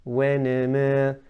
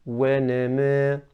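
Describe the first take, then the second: Both takes have the same delivery.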